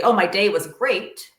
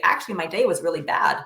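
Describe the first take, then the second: First: Slow, put-on cheerful brush-off; fake cheerful. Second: Said in the usual way. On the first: Parent to child, hiding a bad day, mock bright cheer. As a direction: pretend the day went fine, drawn out a little. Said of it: "you don't lie and say". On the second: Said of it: "You say".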